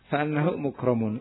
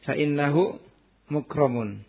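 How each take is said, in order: First: The vowel after fa is an a sound. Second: The vowel after fa is an i sound. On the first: It implies an omitted word to complete the sentence. "Atau boleh juga apa?" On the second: It forms a full sentence needing no implied word. "Dibaca kasrah"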